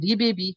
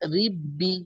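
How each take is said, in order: First: The first b bounces with an extra vowel. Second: The doubled b is held smoothly without bouncing. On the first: The speaker calls it wrong. "সেখানে হবে রিবেবি। কিন্তু কলকলাতে মানে এখানে করা যাবে না।" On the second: The speaker calls it right. "তখন আমরা তাসদিদকেই যায় উচ্চারণ করবো।"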